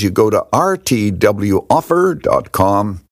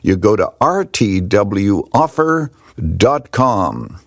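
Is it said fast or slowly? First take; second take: fast; slowly. First: It is said quickly. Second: It is said slowly.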